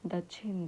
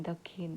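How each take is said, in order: First: दक्षिण said as "दच्छिन", the क्ष spoken as a ch sound. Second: दक्षिण said as "दखिन", the क्ष spoken as an aspirated kh; with a kh sound. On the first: Teacher showing the first Khortha reading of दक्षिण, with छ for क्ष. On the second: Teacher showing the second Khortha reading of दक्षिण, with ख for क्ष. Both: Shown as a demonstration. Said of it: "छ का उच्चारण लेखन छ या ख की तरह होता है".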